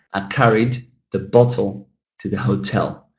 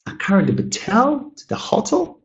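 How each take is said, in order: First: "bottle" stressed on BOT, "hotel" on TEL; corrected word stress. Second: Questioning, "Batel" high on TEL, "hotel" on HO; bah-TEL for "Batel", HOT-ul for "hotel", puzzled rise; wrong word stress. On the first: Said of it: "And now you can say". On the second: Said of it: "if we change the". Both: Shown as a demonstration.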